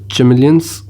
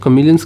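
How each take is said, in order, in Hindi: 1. यह शब्द 'ch' ध्वनि से शुरू होता है। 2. यह शब्द 'k' ध्वनि से शुरू होता है। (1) "भैया ने तो चैमेलियंस बोल दिया" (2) "तो हम कमीलियंस ले लेते हैं।"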